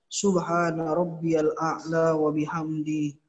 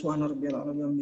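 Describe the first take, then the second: First: The phrase is said slowly and calmly. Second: The phrase is said quickly and hurriedly. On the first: The prayer is done with proper calm. The speaker calls it right. "Begitu tenang, pelan-pelan" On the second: The prayer is rushed. The speaker calls it wrong. "Jangan terlalu cepat"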